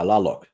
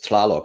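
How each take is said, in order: First: The name begins with a plain L sound. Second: The name begins with a T before the L. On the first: The speaker calls it right. "don't bother with the T" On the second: The speaker calls it wrong. "I always pronounced it as Tlaloc"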